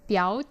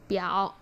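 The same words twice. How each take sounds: First: The syllable is said with the second tone. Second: The syllable is said with the third tone. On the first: "chữ đầu tiên nó sẽ biến thành thanh hai" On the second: "đọc thành thanh ba là biểu"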